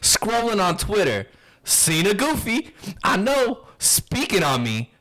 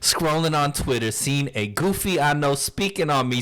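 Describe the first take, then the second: First: There is a pause after Twitter. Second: It runs on with no pause after Twitter. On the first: "read it with if there were commas" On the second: "I didn't put in the commas that time"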